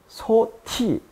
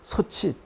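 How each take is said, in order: First: The second syllable begins with a t sound. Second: The second syllable begins with a ch sound. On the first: The speaker calls it wrong. "소티라고 발음하는 사람은 없죠" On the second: The speaker calls it right. "소치라고 발음하게 된 것이고요"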